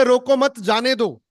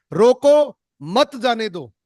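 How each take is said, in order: First: "रोको मत" run together as one phrase, then "जाने दो"; no pause after रोको. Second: "रोको" stretched high and loud, pause, then "मत जाने दो" together; pause after रोको. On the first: Coach voicing the family's let-him-go line, "रोको मत" joined. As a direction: join "मत" to "रोको", high and loud. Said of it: "इसी लाइन को अगर वो इस तरीके से". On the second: Coach voicing a mother stopping her child, pause after "रोको". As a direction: cry a long "रोको", break, join "मत" to "जाने दो". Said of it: "इसी लाइन को इस तरीके से बोल रहे हैं". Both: Shown as a demonstration.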